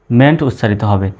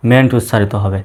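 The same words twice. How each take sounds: The two takes are said the same way.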